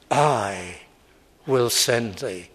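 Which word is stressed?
I. The stress falls on the word I. The sender does the work; the one sent is an instrument. The speaker calls it right. "But God said"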